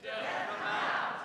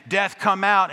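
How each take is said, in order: First: Mock conviction. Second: Loud, high call; booming call. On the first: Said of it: "we said it with more conviction". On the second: Retold or imitated. Pastor pounding on the doors, loud booming call. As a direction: hammer the words out. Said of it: "Bang, bang, bang".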